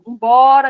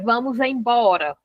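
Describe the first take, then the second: First: Only the last word is said, three syllables. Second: The full phrase is said with all syllables. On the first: A shortened everyday form. "As pessoas vão dizendo" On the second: The complete form nobody uses anymore. "Hoje você não fala assim"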